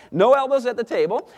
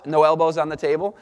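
First: Wife's firm rule. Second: Said in the usual way. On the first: Retold or imitated. Husband quoting wife's table rule, higher firm imitation. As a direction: lay down the rule like his wife. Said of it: "So she says". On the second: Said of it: "We established some table manners".

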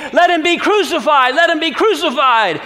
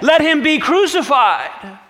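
First: Top-of-voice high yell; the mob now screaming it louder; even higher and louder than before, full mob roar; crying out more. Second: High, loud insistent call; the mob calls for his death; raised, loud, but not yet at full force; crowd demanding. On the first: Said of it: "they cried out all the more". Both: Acted.

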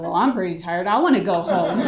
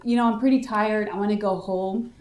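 First: Retold echoing comeback, breaking into a laugh; retort. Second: Said in the usual way. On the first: Suspect echoes her interrogator's complaint, amused retort. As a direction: throw the complaint back, emphatic and amused. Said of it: "I was like". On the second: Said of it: "She's like".

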